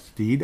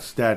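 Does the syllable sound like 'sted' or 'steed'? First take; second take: steed; sted. First: The vowel is long, like in 'need'. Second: The vowel is short, like in 'bed'. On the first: The speaker calls it right. "Like Steed, I think" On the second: The speaker calls it wrong. "It's not Stedt"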